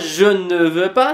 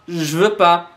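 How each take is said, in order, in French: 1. Le petit mot 'ne' est bien prononcé. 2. Le petit mot 'ne' est omis. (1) "C'est pas je ne veux pas" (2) "c'est genre je veux pas"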